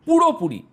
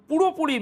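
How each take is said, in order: First: পুরোপুরি set apart, high and loud, then falling; stress on পুরোপুরি. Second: Said in the usual way. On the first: Retold or imitated. News presenter repeats a spokesman's key word, পুরোপুরি stressed hard. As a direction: punch পুরোপুরি alone, louder and higher. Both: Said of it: "এই শব্দটার উপর তিনি জোর দিয়েছেন".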